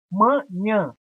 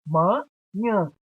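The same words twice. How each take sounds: First: "Manhã" in two beats, weight on nhã; careful "Manhã" with a distinct second syllable; stressed final syllable. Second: "Manhã" divided as ma, then nhã; spaced-out two-beat "Manhã"; split into syllables. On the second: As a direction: clear pause inside "Manhã" before nhã. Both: Shown as a demonstration. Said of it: "Nhã é a sílaba tônica".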